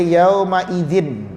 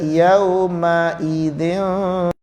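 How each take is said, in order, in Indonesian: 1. Bunyi n diucapkan dengan jelas dan penuh. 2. Bunyi n disembunyikan menjadi bunyi sengau. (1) "jangan baca yauma idzin, salah, jadi izhar" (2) "Dia baca yauma idzin"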